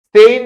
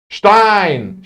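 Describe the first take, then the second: First: The word begins with a plain s sound. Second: The word begins with a sh sound. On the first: The speaker calls it wrong. "sıt yapmıyorsunuz" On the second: The speaker calls it right. "şıtlıyorsunuz"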